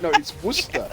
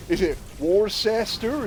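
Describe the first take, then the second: First: Worcester said as Wuss-ter; clipped Wuss-ter; correct British. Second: Worcester said as Wor-ces-ter, slow and rising; spell-it-out Worcester; American guess. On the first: Shown as a demonstration. Correcting the Americans on the name. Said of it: "It's like". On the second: Retold or imitated. Americans guessing the place name. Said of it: "So it's like".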